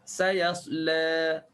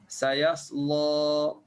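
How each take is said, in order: First: The L sound is thin and light. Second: The L sound is thick and heavy. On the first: "Tipiskan lam" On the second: "Lam kan kena tebal"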